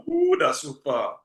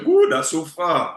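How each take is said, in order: First: Said in the usual way. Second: Mock dismay. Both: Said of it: "The normal refrain was".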